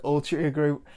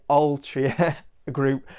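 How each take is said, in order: First: "Altria" slowly with a U sound, Yorkshire style. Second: "Altria" slow and clear, no Yorkshire U; careful Altria. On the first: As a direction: say "Altria Group" like "Altruia", broad Yorkshire. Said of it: "'cause I always say, like, Altria with a U". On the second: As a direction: carefully pronounce "Altria Group" as "ALL-tree-a". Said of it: "So I'll try and say Altria Group". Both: Shown as a demonstration.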